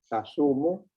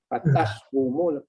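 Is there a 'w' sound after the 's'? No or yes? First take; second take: no; yes. First: No 'w' sound follows the 's'. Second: A 'w' sound follows the 's'. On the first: The speaker calls it right. "lebih mudah" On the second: The speaker calls it wrong. "payah nak sebut"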